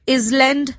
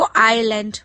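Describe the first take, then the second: First: The s is pronounced in the middle. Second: The s is silent in the middle. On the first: The speaker calls it wrong. "But इसको इसलैंड नहीं बोलते" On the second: The speaker calls it right. "एस silent होता है तो हम इसको आइलैंड पढ़ते हैं"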